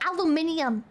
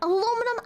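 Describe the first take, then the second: First: The word is said with five syllables. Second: The word is said with four syllables. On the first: It sounds menacing, like a weapon material. The speaker calls it wrong. "it's about to be used to make a fucking death laser" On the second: It sounds friendly, like kitchen foil. The speaker calls it right. "I think aluminum sounds a lot friendlier"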